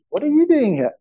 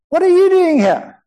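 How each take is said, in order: First: The question is asked in an inquiring tone. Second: The question is asked in a surprised tone.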